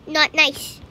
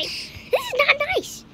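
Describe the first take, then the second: First: Said in the usual way. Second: High, slow, drawn-out complaint; whiny protest. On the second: Real, not acted. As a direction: stretch it out high and plaintive. Protests at scary boss.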